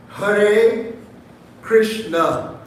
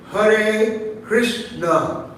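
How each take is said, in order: First: Hare and Krishna split apart with a pause, each word said slowly and clearly; syllable by syllable. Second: Said in the usual way. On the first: Shown as a demonstration. Preacher showing the congregation how Hare Krishna should be said, slowly. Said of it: "there's four syllables there". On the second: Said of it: "when you pronounce the word Hare Krishna".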